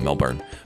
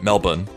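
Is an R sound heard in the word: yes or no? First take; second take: yes; no. First: The word is said with an R sound. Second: The word is said without an R sound. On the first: This names the city in Florida. "we have a city in Florida called Melbourne, and you call it Melbourne" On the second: This names the city in Australia. "No R sound in the word"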